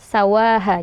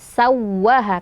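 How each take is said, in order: First: The w is short and not pressed. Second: The doubled w is pressed and held. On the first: The speaker calls it wrong. "jika tidak ditekan e, akan hilang salah satu hak huruf wawnya" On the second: The speaker calls it right. "di waw tasydid ini agak ditekan ya"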